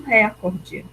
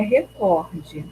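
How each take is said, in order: First: The stress is on the first syllable. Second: The stress is on the second syllable. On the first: The speaker calls it wrong. "muitas pessoas falam recorde, e não é" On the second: The speaker calls it right. "A pronúncia adequada é recorde ... é o có. Ela é paroxítona"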